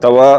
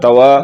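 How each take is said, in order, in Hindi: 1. w की आवाज़ छोटी और इकहरी है। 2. w की आवाज़ छोटी और इकहरी है।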